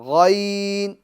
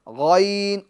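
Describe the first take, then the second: First: It starts with a full, throaty gh sound. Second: The same.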